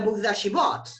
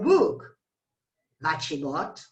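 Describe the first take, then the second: First: There is no pause after 'book'. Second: There is a strong pause after 'book'. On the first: The words form one noun phrase with a relative clause. "there is no pause" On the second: The phrase is the focus of a cleft sentence. "there is a strong pause here"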